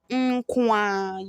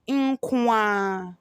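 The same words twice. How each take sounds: First: The r sound is dropped entirely. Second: The same.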